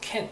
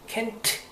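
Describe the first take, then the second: First: The final T is very weak. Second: The final T is clearly pronounced. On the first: The speaker calls it right. "T자 상당히 약하게 해서" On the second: The speaker calls it wrong. "그러지 않고"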